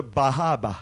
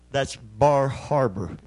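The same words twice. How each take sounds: First: Put-on Maine accent, dropping the r in Bahaba. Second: Said in the usual way. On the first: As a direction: say Bahaba with no r sounds, Maine style. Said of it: "They dropped the R's".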